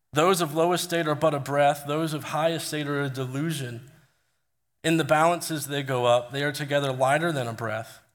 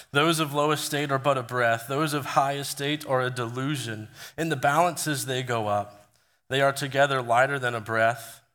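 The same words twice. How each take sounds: No difference in how they are said.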